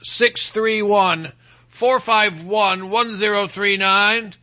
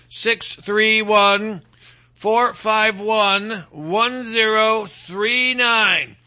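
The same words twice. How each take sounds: First: The number is said at normal speed. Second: The number is said slowly.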